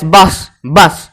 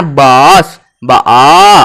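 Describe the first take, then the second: First: Said in the usual way. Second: बस drawn out low as "baw-aws"; stretched O sound. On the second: Shown as a demonstration. Teacher pointing out the middle vowel, बस stretched to "baaws". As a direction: hold the aw in बस at a lower pitch. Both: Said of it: "बीच में लेकिन ओ आ रहा है ना".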